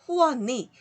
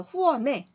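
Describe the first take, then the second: First: 후원이 ending in "ui/i", linked as "hu-wo-ni"; alternative particle pronunciation. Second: 후원에 ending in a clear "e", linked as "hu-wo-ne"; permitted particle pronunciation. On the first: Teacher allowing the other reading, alternative particle pronunciation. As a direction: link the n of 후원이 into the final vowel. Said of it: "이렇게 발음해도 좋다는 거죠". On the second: Teacher recalling the permitted reading, particle pronounced e. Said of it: "에라는 발음을 허용한댔죠". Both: Shown as a demonstration.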